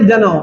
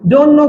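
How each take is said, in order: First: The words blend into one reduced word. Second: Both words are said fully and separately.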